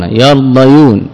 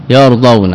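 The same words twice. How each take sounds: First: يرضيون drawn out slowly, syllable by syllable; slow teaching voice on يرضيون; slowed underlying form. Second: Said in the usual way. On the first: Shown as a demonstration. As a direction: spell out يرضيون slowly so each sound is heard. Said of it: "تحركت الياء بالضمة".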